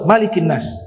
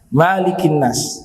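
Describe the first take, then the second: First: The first vowel of Malik is kept short. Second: The first vowel of Malik is drawn out long. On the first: The speaker calls it right. "Dia harus qasar" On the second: The speaker calls it wrong. "gak boleh Malik"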